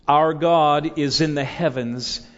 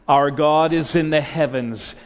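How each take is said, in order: Both takes have the same delivery.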